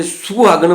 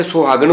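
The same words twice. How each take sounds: First: ਸੁਹਾਗਣ said "suhagan" with a short u; aunkar reading. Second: ਸੁਹਾਗਣ said "sohagan" with an o; ਸੁਹਾਗਣ with an open "so"; hora reading. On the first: Teacher shows the u reading of ਸੁਹਾਗਣ. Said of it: "ਔਂਕੜ ਉਚਾਰਨ ਕਰਾਂਗੇ". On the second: Teacher shows the o reading of ਸੁਹਾਗਣ. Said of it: "ਹੋੜਾ ਉਚਾਰਨ ਕਰਾਂਗੇ". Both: Shown as a demonstration.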